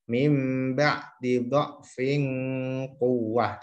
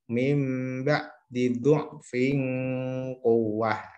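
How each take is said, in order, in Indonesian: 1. Suku kata pertama dha'fin memiliki vokal a. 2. Suku kata pertama dha'fin memiliki vokal u. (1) "sesuai tulisan ini fathah" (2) "diganti ... boleh dibaca dhammah"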